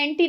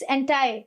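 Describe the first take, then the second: First: The word ends with an 'ee' sound. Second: The word ends with an 'eye' sound. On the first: "मैंने एंटी national बोल दिया" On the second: "it's एंटाई"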